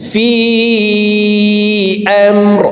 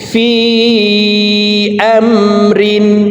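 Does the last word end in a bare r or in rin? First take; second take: bare r; rin. First: The last word ends in a bare r sound. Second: The last word ends in rin with an n. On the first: The reader stops on this word. "রকে ওয়াকফের ক্ষেত্রে সাকিন করে ফেলব।" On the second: The reader does not stop on this word. "এই তানবিনওয়ালা রকে নুনযুক্তভাবে উচ্চারণ করব।"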